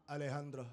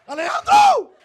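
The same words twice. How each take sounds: First: Very soft, low murmur of a lover's name; hushed sultry name. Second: Very high, loud wail of the rival's name; anguished name scream. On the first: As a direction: imitate her savoring the name under her breath. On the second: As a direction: howl it in jealous defeat. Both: Retold or imitated.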